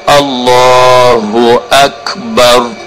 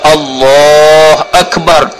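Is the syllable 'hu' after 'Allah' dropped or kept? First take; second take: kept; dropped. First: The syllable 'hu' is pronounced in full. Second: The syllable 'hu' is left out. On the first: The speaker calls it right. "Kena kata wi molek, kata wi cukup" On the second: The speaker calls it wrong. "Tak leh juga, tinggal ho"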